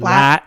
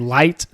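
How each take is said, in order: First: The vowel is flattened into a single sound. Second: The vowel glides fully, as in standard speech. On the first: "some country will say lat" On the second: "I'll say light"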